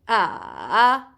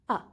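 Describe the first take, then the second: First: The pitch dips down and then rises. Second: The pitch is short and unmarked, neutral. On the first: "you go from up to down to up" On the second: "You just pronounce it ah without anything"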